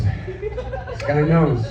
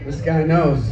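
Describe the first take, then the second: First: Knows stretched very slow through a laugh; slow knowing chuckle on This guy knows; drawn out, laughing. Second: Said in the usual way. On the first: Shown as a demonstration.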